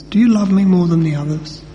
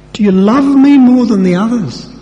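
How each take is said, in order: First: A plain, earnest asking without irony; sincere question. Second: High, loud, overdone challenge; mock sarcastic. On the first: Acted. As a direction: ask it gently and honestly. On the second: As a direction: fling the question up high like a jibe. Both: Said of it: "He wasn't being sarcastic".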